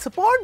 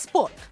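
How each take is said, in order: First: All of the vowels are fully pronounced. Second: A vowel is swallowed and dropped.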